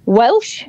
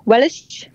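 First: Said in the usual way. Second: Welsh lilt, "Welsh" in two syllables; Welsh accent. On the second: Shown as a demonstration. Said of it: "go back and do that again".

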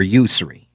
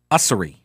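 First: "Ussery" starting with a you sound; first syllable of "Ussery" like "use"; Ussery with long U. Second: "Ussery" starting with an uh sound; first vowel of "Ussery" as in "us"; Ussery with short U. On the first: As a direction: say "Ussery" as YOO-suh-ree. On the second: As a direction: say "Ussery" as UH-suh-ree. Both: Shown as a demonstration. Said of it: "I think it's Ussery".

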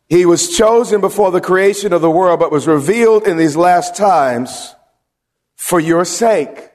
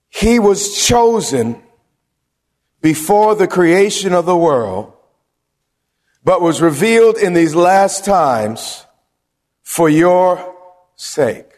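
First: Verse repeated a bit faster; preacher rereading the verse; scripture reread. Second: Slow, weighty verse read aloud; deliberate preacher's scripture reading. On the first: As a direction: restate the verse with a firm close. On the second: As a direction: read the verse slowly, leaning on each phrase. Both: Acted.

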